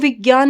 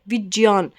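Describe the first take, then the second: First: The middle cluster is said with a g sound. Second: The middle cluster is said with a j sound. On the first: The speaker calls it wrong. "वो विज्ञान नहीं बोलते" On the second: The speaker calls it right. "वो हमेशा क्या है विज्ञान बोलते हैं"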